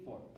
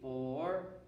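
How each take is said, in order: First: The word is cut short and stopped abruptly. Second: The word is held long, rising at the end. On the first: The speaker calls it wrong. "Notice I did not do this. I didn't stop on four" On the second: The speaker calls it right. "I let four go all the way and my voice go up at the end of it"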